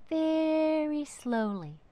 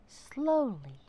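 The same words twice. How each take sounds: First: Slow, higher, drawn out; very slowly. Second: Said in the usual way. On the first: A narrator's reading. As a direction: stretch it out slowly.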